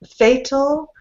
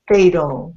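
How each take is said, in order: First: The middle consonant is a clear T sound. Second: The middle consonant is a soft D sound.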